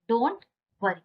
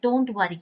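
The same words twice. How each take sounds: First: Rising "don't", long pause, falling "worry"; word-by-word model. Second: Said in the usual way. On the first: Shown as a demonstration. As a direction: split "don't" and "worry" for learners. Teacher repeats it word by word.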